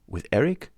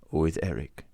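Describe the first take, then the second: First: Rising, higher startled question; surprised question. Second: Lower, falling, in the Persian's voice; grim confirmation. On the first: Raoul asking if Christine is with Eric, surprised rising question. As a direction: ask it in disbelief. Raoul asks, Persian echoes. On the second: The Persian confirming to Raoul, grim falling answer. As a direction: confirm it flatly and gravely. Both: A narrator's reading.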